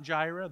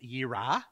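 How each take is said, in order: First: The word begins with a J sound. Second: The word begins with a Y sound. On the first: The speaker calls it wrong. "It's not Jireh" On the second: The speaker calls it right. "It's Yirah"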